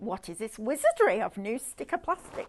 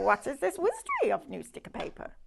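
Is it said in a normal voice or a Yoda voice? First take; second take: normal voice; Yoda voice. First: It is said in her normal voice. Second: It is said in a Yoda impression voice.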